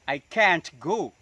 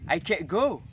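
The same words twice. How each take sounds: First: The T in can't is released audibly. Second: The T in can't is held, not released. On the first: "Itu contoh yang dilutupkan" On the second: "huruf T-nya ditahan"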